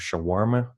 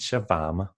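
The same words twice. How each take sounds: First: The middle consonant is a rounded W sound. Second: The middle consonant is a V sound. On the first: "In English, we say" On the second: "In Danish, we keep it flat"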